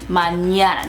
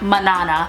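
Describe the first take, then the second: First: The second consonant is an ny sound. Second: The second consonant is a plain n sound. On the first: The speaker calls it right. "therefore being pronounced maña" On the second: The speaker calls it wrong. "not manana"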